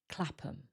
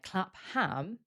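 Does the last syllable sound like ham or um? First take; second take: um; ham. First: The last syllable is a weak um. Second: The last syllable is a full ham. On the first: The speaker calls it right. "The ham becomes weaker and sounds like um" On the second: The speaker calls it wrong. "this doesn't sound like Clapham"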